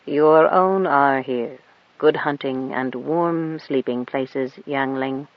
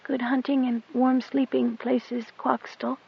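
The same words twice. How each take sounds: First: Put-on an old beast bidding her farewell, slowly; cat's telepathic voice. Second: Put-on high, soft girl's whisper under her breath; whispered back. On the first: Cat's farewell thought to girl. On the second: Goat Dung whispers her goodbye to the cat, high and soft. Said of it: "she whispered back under her breath". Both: A narrator's reading.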